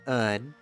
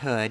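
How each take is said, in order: First: The word starts without an H sound. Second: The word starts with an H sound. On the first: The speaker calls it right. "you gotta not pronounce that H" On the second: The speaker calls it wrong.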